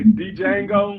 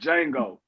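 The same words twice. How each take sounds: First: The initial D sound is pronounced. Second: The initial D sound is silent. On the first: The speaker calls it wrong. "a lot of people say Django, but it's not" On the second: The speaker calls it right. "It's just Django. The D is silent"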